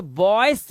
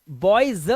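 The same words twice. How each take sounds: First: Put-on बॉयज said as "boyss" with a hissed s; wrong S ending. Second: Put-on बॉयज said as "boy-zza" with a buzzing z; voiced Z ending. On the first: Teacher showing how not to say it, hissed s ending. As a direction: end बॉयज on a voiceless s. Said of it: "तो बॉयज नहीं बोलते". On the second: Teacher giving the correct form, buzzed z ending. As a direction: stress the voiced z closing बॉयज. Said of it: "बॉयज बोलते हैं". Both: Shown as a demonstration.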